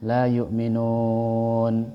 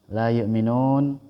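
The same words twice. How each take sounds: First: The long vowel is held for six beats. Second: The long vowel is held for two beats. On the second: "Dua harokat"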